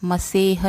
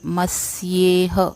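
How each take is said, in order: First: It is said without a 'y' after the 's'. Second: It is said with a 'y' after the 's'. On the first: The speaker calls it wrong. "मसेह नहीं" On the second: The speaker calls it right. "नहीं मस्येह"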